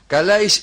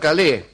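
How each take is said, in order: First: The name is pronounced the Greek way. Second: The name is pronounced the French way. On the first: The person named is Greek. The speaker calls it right. "ya que son griegos" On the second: The person named would be French. The speaker calls it wrong. "y no franceses"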